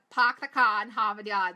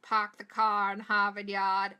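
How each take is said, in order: First: Boston accent, Park the car in Harvard Yard said louder, every r dropped. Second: R-less Boston accent, pahk the cah. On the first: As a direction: punch it out in broad Boston. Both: Shown as a demonstration. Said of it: "That's what people like to say".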